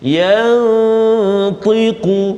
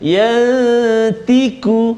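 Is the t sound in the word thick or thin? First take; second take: thick; thin. First: The t sound is thick and heavy. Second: The t sound is thin and light. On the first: The speaker calls it right. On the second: The speaker calls it wrong.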